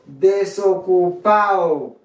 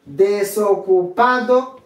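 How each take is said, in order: First: Desocupado said "de-so-cu-PAO", slow and falling; "desocupado" with its last D silent; dropped D. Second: Desocupado slowly with "-PA-do" sounded; "Desocupado" ending in a distinct "-ado"; full D. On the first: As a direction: slide A into O in desocupado. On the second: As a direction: say Desocupado in full, last D clearly heard. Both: Shown as a demonstration. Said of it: "ou qu'à prononcer ou qu'à pas".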